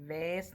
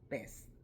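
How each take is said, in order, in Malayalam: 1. ഈ വാക്ക് V ശബ്ദത്തിലാണ് തുടങ്ങുന്നത്. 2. ഈ വാക്ക് B ശബ്ദത്തിലാണ് തുടങ്ങുന്നത്. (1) "വേസ് എന്നല്ല പറഞ്ഞത്" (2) "ബോയിയുടെ ബി വെച്ച് നമ്മൾ പ്രൊണൗൺസ് ചെയ്യുന്നത്"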